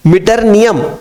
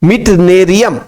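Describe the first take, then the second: First: मिटरनियम said as "mit-ar-ni-yum", with an r after mit; teacher's first try at the name. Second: मिटनेरियम said as "mit-ne-ri-yum", ne right after mit; corrected pronunciation. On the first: Teacher tries the element name for students, मिटरनियम with r after mit. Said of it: "वास्तव में इसका उच्चारण होगा". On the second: Teacher gives students the corrected element name, मिटनेरियम, mit-ne-ri-yum. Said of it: "इसका नाम मैं बताता हूं आपको". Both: Shown as a demonstration.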